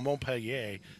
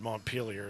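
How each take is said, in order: First: The name is said with a French pronunciation. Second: The name is said with an American pronunciation. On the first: "how I would say it with my French background training" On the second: "probably how they say it in Ohio"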